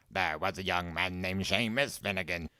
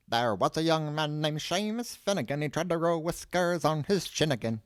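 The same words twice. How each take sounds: First: Understated put-on recital; quoting the song. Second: Sung, high singsong folk rhyme; sung, old man's singsong. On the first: Door voice reminding Seamus of his single, reciting. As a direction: recite the rhyme at ordinary pitch in a put-on voice. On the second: Sung, old man reciting his song about Seamus, singsong. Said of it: "he cleared his throat". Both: A narrator's reading.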